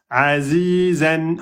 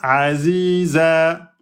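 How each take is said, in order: First: The word ends with an n sound. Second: The word ends on a lengthened vowel.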